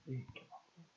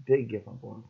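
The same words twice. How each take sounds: First: "Didn't give up on him" almost breathed away, much softer; near-silent repeat. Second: Said in the usual way. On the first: Real, not acted. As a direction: let the repeat fade to nearly nothing. Repeats the phrase, second dies away.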